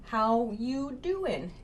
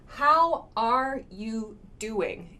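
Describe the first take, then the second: First: "How you doing" slow, are dropped; rough and casual, no are; casual dropped verb. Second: "How are you doing" slow, every word spelt out; full careful form. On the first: Teacher demoing the casual dropped-verb form. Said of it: "it sounds kind of cool, kind of rough". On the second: Teacher giving the full grammatical form. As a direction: say the are clearly, slowly. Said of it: "is what this means". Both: Shown as a demonstration.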